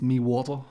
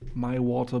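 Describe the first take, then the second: First: It is said in an Irish-style accent. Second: It is said in a plain standard accent.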